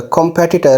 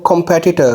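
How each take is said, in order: No difference in how they are said.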